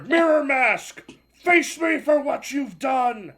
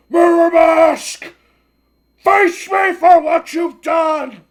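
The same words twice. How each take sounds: First: Slow, higher, louder villain cry, words made clear; clearer villain shout. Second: Slow, booming villain roar, much higher and louder; villain's bellowed challenge. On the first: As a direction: repeat the challenge slowly, clearer this time. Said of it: "I'm sorry, what was that?". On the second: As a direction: bellow it out slowly, as a furious old villain. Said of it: "I did not understand your growling". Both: Acted.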